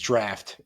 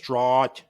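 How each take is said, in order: First: The vowel sounds like in 'laughed'. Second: The vowel sounds like in 'out'. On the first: The speaker calls it right. "it's draft. Should be saying draft" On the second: The speaker calls it wrong. "this whole time I've been saying Guinness Drought"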